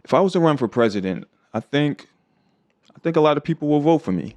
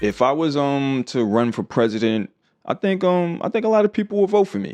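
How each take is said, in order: First: Hesitations are silent pauses without 'um'. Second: Hesitations are filled with 'um'.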